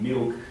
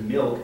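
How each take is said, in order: First: The L is said like a W sound. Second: The L is said as a clear L sound. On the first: "replaces L with W" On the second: "instead of"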